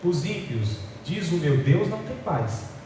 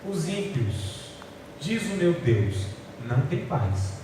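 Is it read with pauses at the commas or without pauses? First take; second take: without pauses; with pauses. First: It is read without pausing at the commas. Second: It is read pausing at each comma.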